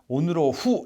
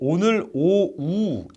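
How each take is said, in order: First: It stops before the h, which is pronounced sharply. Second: The h is softly linked, almost like a vowel. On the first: The speaker calls it wrong. "히읗음가를 살리려고 뭔가 오늘 오후 이런 데서 너무 다 멈춰요" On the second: The speaker calls it right. "이응처럼 발음해도 히읗 음가가 살아 있습니다"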